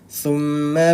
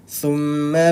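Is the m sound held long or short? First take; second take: short; short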